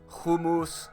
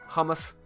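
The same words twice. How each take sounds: First: It is said with a Greek accent. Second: It is said with an American accent.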